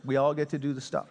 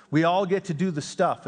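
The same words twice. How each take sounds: First: Quick repeat. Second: All lifted and leaned on, falling at the end; stress on all. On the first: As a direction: rattle the phrase off again, lightly. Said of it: "I love that phrase". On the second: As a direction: lean on "all", then let the phrase drop. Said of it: "in the words of John Wimber". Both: Shown as a demonstration.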